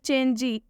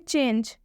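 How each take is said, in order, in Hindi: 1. शब्द के अंत में एक लंबा ee स्वर जोड़ा जाता है। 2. शब्द j ध्वनि पर खत्म होता है, कोई स्वर नहीं।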